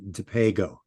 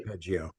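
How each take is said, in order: First: The G is pronounced hard, as in go. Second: The G is pronounced soft, as in gem. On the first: The speaker calls it right. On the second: The speaker calls it wrong.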